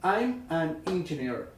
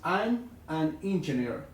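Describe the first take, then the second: No difference in how they are said.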